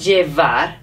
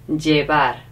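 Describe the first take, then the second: First: The middle consonant is an English V sound. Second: The middle consonant is a soft B sound. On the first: The speaker calls it wrong. "So not llevar, because loads of English people say llevar" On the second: The speaker calls it right. "even if you see a V, it's a B sound"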